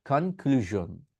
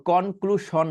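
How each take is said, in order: First: কনক্লুশন as slow "khan-klu-zhon"; breathy k and buzzed zh in কনক্লুশন; correct ZH pronunciation. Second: কনক্লুশন as "kon-klu-shon", with sh; drawn-out কনক্লুশন with Bengali o and sh; wrong SH pronunciation. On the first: Teacher modelling for learners, slow zh in কনক্লুশন. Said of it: "আসলে এটা কি হবে". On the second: Teacher rejecting learners' habit, sh in কনক্লুশন. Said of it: "তারপর কনক্লুশন না". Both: Shown as a demonstration.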